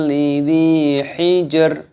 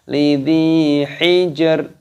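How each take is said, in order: Both takes have the same delivery.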